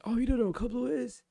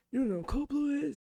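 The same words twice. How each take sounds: First: High, sneering mock question; mock the trainee's ignorance; mocking disbelief. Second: Even higher, incredulous sneer stressing blue; mocking disbelief, pushed higher. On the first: Instructors mock a trainee who doesn't know, in high sneering disbelief. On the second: Instructors repeat the question to the trainee in shrill mock disbelief. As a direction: rub it in with higher scorn.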